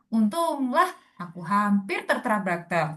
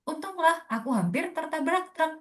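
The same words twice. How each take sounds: First: The phrase is drawn out over a longer time. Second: The phrase is delivered quickly, in a short time. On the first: It does not fit the original character's timing. The speaker calls it wrong. "Pasti nggak akan masuk durasi gitu" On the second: It matches the original character's timing. The speaker calls it right. "itu yang yang kita acuannya segitu tuh"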